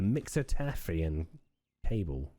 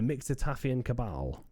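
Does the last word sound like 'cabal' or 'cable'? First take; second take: cable; cabal. First: The last word sounds like 'cable'. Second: The last word sounds like 'cabal'. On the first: The speaker calls it wrong. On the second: The speaker calls it right.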